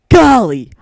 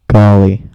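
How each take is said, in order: First: It is said in a Link impression voice. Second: It is said in the speaker's own voice.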